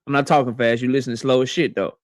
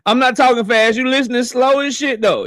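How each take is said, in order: First: Said in the usual way. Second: Laughing retake; laughing repeat. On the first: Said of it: "repeats the line". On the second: Shown as a demonstration. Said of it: "repeat of the line".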